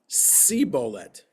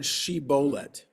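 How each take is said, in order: First: The word begins with an s sound. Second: The word begins with an sh sound. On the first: The speaker comes from a dialect without the sh sound. "they don't pronounce the S H" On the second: This is the standard pronunciation. "say the word shibolet"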